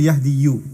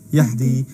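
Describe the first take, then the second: First: The word ends with an added 'u' vowel. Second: The word ends on the bare 'i' sound. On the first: The speaker calls it wrong. "You don't say yahdi you" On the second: The speaker calls it right. "You just say what? Yahdi"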